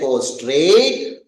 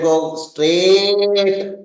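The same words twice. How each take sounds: First: The vowel in straight is drawn out. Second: The vowel in straight is held very long. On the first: The distance to go is a little longer. "The second straight means go straight, means it goes a little longer" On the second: The distance to go is very long. "The third straight means very long"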